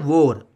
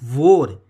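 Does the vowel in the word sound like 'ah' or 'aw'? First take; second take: aw; aw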